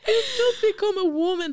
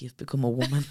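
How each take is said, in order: First: Much higher and louder, laughing through the words; laughing disbelief. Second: Said in the usual way. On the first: Real, not acted. Laughing at the absurd diagnosis.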